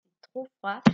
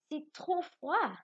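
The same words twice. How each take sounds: First: «C'est trop froid» with a lift on trop; exclamation. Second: Slow, high exclaimed line; exclamation. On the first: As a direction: exclaim it to the class. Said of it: "Je dis". («C'est trop froid» avec un léger élan sur trop) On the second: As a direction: say it like you feel the cold. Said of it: "c'est un sentiment qu'on exprime". (phrase exclamative lente et aiguë) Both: Shown as a demonstration.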